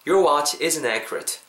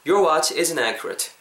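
Both takes have the same delivery.

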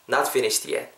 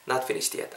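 First: Said in the usual way. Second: Soft unvoiced whisper of "Not finished yet"; teacher drops to a whisper on the repeat. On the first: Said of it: "Not finished yet. (whispered repeat)". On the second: Shown as a demonstration. Teacher repeating the phrase to the class, whispered.

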